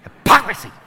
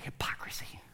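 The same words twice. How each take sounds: First: Hypocrisy with a hard, spat P on "POC"; spitting disdain. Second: Said in the usual way. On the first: Shown as a demonstration. Preacher showing the congregation how to spit it, spitting disdain. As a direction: spit out hypocrisy, exploding loudly on the second syllable. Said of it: "You gotta spit a little bit". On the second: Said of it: "That's a fun word to say".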